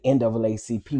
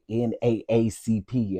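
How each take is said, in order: First: The two A's are said as 'double A'. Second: The two A's are said letter by letter. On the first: The speaker calls it wrong. "we don't say N double A C P" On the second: The speaker calls it right. "we say N A A C P"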